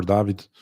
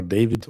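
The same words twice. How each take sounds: First: "David" said DAH-vid, with an open "ah". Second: "David" said DAY-vid, with a long "ay"; English DAY-vid. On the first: Host unsure of a friend's name, "David" as DAH-vid. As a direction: say "David" with a first vowel as in father. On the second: Host unsure of a friend's name, "David" as DAY-vid. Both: Shown as a demonstration. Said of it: "I don't know if you are David or David".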